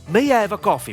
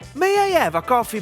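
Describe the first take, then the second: First: The voice is pitched low. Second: The voice is pitched high. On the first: The request sounds authoritative. The speaker calls it right. "we can do it better by using a low tone" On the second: The request sounds unpleasant. The speaker calls it wrong. "I tone. / with this high tonality is disgusting"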